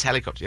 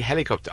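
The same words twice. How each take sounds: First: Helicopter said the English way, stress on the first syllable; English pronunciation. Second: Hélicoptère said the French way, stress on the last syllable; French pronunciation. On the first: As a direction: helicopter in plain English, HEL-icopter. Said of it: "Oh, it is helicopter". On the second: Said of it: "just mucking about in French". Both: Retold or imitated.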